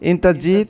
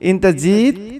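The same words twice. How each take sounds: First: It is said plainly, without extra force. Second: It is said with more force and emphasis. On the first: It states that you came. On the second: It asks whether you came.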